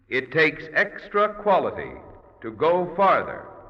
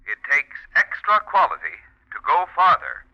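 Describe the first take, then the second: First: The voice sounds echoey and reverberant. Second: The voice sounds thin and filtered. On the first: "through the echo chamber" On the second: "if I said that through the filter mic"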